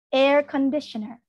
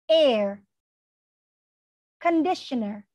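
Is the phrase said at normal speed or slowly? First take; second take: normal; slowly. First: It is said at a normal speed. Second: It is said slowly, word by word.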